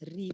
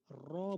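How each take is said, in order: First: The r is followed by a close i vowel. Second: The r is followed by an open a vowel. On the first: "ri pun bukan" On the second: "Ra bukan"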